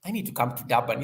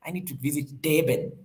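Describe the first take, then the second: First: Said in the usual way. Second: "Durban" as "Dayben" in a South African accent; playful South African accent, "Durban" said "Dayben". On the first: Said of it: "I need to say it with a South African accent". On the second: Shown as a demonstration. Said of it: "I need to say it with a South African accent so that it comes out nicely".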